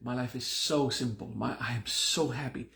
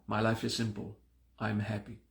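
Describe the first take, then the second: First: Emotional push on the word so in so simple and so happy; dramatized mantra. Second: Said in the usual way. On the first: Shown as a demonstration. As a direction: lean into so with manifesting intensity. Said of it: "We dramatize it". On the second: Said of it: "simplicity is state of fact".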